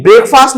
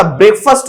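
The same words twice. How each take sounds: First: "ब्रेकफास्ट" with a full aa; wrong pronunciation. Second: "ब्रेकफास्ट" as BREK-fust; short weak vowel in the end of "ब्रेकफास्ट"; correct pronunciation. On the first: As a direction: say "ब्रेकफास्ट" as BREK-faast. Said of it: "ब्रेकफास्ट नहीं होता". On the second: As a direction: say "ब्रेकफास्ट" ending in -fuhst. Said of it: "ब्रेकफास्ट होता है". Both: Shown as a demonstration.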